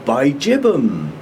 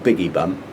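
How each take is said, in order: First: The name follows the Australian pronunciation. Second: The name is said as 'Biggie Bum'. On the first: This is how the name is properly said. "I heard an Australian say it properly" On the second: This is the speaker's preferred jokey reading. "I still like Biggie Bum"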